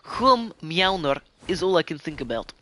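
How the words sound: It is said in a Russian accent.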